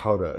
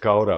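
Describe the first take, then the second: First: It is said the Dutch way. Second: It is said the usual English way.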